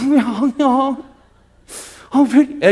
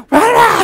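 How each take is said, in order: First: "왜 안 와?" asked higher in a sweet, pouting whine; cute coaxing. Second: "왜 안 와?" screamed far higher and louder; angry shriek. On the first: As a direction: pout "왜 안 와?" playfully, not angrily. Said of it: "애교를 부려야 되잖아". (애교 부리듯 "왜 안 와?") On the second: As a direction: bark "왜 안 와?" like a furious accusation. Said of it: "이렇게 하지 말고". (화내며 꽥 지르는 "왜 안 와?") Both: Shown as a demonstration.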